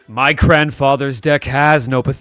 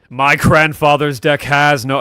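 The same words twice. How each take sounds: First: The line is delivered with less intensity. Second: The line is delivered with strong intensity.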